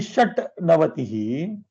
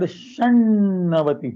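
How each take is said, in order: First: A T sound comes before the N. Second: A doubled N sound replaces the T. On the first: This is the form before the sound change. "It is actually shat navatihi" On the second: This is the form after the sound change. "So you get the word shannavatihi"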